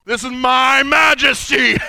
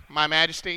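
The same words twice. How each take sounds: First: Booming man voice. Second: Mock timid king proclaiming "My majesty"; weak king voice. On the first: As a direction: boom "majesty" like a mighty king. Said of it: "they got a man voice". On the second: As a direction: say "My majesty" small and timid, no power. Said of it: "You don't think he said it like". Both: Shown as a demonstration.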